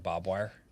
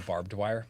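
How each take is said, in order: First: The first word is said as 'bob'. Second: The first word is said as 'barbed'. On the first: "My dad would say bob wire" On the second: "my dad wouldn't say barbed wire"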